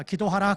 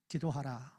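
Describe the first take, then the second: First: "기도하라" louder and higher, rising; emphatic. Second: "기도하라" softer and lower, falling; softly. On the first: Pastor urging the congregation to pray, louder. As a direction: call it out as a command. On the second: Pastor repeating the command to pray, softer. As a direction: let it settle quietly. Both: Shown as a demonstration. Explaining the verse.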